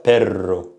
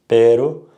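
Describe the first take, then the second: First: "perro" with a long rolled R; strong R. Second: "Pero" with one quick tapped R; soft R. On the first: Teacher compares Spanish words, strong trilled R. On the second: Teacher compares Spanish words, soft tapped R. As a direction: tap the R of "Pero" lightly, Spanish style. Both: Shown as a demonstration. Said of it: "strong R versus soft R".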